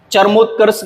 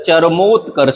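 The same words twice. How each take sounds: First: चरमोत्कर्ष run together, char-mut-kars; wrong pronunciation. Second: चरमोत्कर्ष with a drawn mo, cha-ra-mot-karsh; correct pronunciation. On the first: Teacher showing the mistake, चरमोत्कर्ष said with short middle vowel. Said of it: "गलत है". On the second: Teacher correcting it, चरमोत्कर्ष said with long mo. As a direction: lengthen mo in चरमोत्कर्ष. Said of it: "सही है". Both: Shown as a demonstration.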